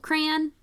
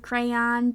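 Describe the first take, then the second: First: It is one syllable rhyming with man. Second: Its vowel rhymes with the word Don. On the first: "like rhymes with man. So like as one syllable" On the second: "like Don"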